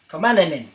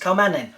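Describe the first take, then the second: First: The word has an extra '-nen' syllable. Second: The word ends with a single '-nen' syllable. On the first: The speaker calls it wrong. "I'm putting an extra N in there" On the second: The speaker calls it right. "No, it's kamanen"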